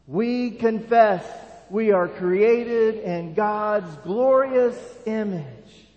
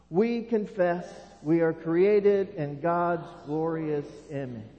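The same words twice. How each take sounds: First: It is said with more passion and energy. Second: It is said calmly, without extra passion.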